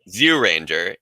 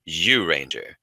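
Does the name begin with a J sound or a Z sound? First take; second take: Z sound; J sound. First: The name begins with a Z sound. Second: The name begins with a J sound. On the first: The speaker calls it wrong. "It's not Zyuranger" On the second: The speaker calls it right. "it's Zyuranger with a J"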